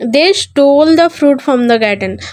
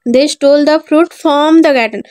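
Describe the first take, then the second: First: The word stole carries the main stress. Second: The word garden carries the main stress. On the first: The act was stealing. "मतलब उन्होंने चुरा लिया garden से fruit." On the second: The place stolen from was the garden. "मतलब उन्होंने garden से fruit चुरा लिया।"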